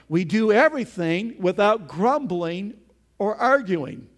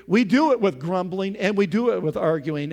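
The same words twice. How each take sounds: First: Loud, deliberate stress on "without grumbling". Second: "with" punched as the opposite; stress on WITH. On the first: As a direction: set "without grumbling" out firmly as the rule. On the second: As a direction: hit "with" before "grumbling" and before "arguing". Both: Shown as a demonstration. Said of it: "Opposite, we do".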